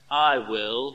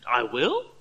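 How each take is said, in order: First: It sounds resigned and surrendering. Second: It sounds stupefied and amazed.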